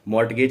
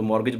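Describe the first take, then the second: First: The t sound is pronounced. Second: The t sound is silent. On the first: The speaker calls it wrong. "मॉर्टगेज नहीं पढ़ना है इसको" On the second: The speaker calls it right. "इसमें भी हमारा टी silent होता है, तो मॉर्गेज बनना है"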